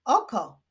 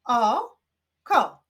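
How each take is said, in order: First: Said in the usual way. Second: "O", pause, then "ko"; syllable by syllable. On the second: Shown as a demonstration. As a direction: clap out "O, ko" as separate beats. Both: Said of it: "Wyklaszczmy sylaby w tych wyrazach".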